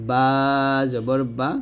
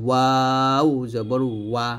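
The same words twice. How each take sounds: First: "বা" from both lips pressed together; closed-lip B. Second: "ওয়াও" drawn out with rounded lips. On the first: Teacher contrasts ba with waw, closed-lip "বা". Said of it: "দুই ঠোঁট মিল করে". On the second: Teacher contrasts waw with ba, rounded "ওয়া". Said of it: "দুই ঠোঁট গোল করে". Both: Shown as a demonstration.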